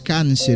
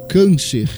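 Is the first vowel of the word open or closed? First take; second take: open; closed. First: The first vowel is an open, Spanish-like a. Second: The first vowel is a closed, nasal a. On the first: The speaker calls it wrong. "não é câncer" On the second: The speaker calls it right. "e sim câncer"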